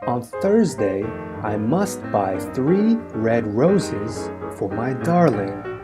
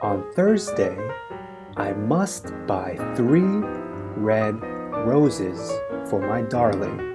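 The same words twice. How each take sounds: First: The sentence is spoken at a medium pace. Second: The sentence is spoken at a slow pace. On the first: "let's try it a little faster now" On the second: "Repeat after me"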